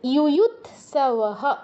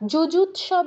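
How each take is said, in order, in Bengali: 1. শব্দটি 'y' ধ্বনি দিয়ে শুরু। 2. শব্দটি 'j' ধ্বনি দিয়ে শুরু। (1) "তাহলে উচ্চারণ কি হবে?" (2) "যুযুৎসব বলা নিষেধ"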